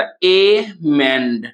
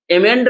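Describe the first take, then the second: First: amend stretched very slowly into "ए... mend"; slow syllable-by-syllable demo. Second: Said in the usual way. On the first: Shown as a demonstration. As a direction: draw out both syllables of amend, ए, then a long falling mend. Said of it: "इसको हम लोग उच्चारण करते हैं". (Amend को बहुत धीरे, खींचकर "ए... मेंड") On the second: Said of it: "amend कैसे उच्चारण करते हैं".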